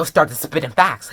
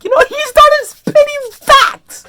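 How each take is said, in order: First: Said in the usual way. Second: Very high, loud squeal; loud high-pitched gushing; hyped outburst. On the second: Real, not acted. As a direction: squeal it with total fan excitement.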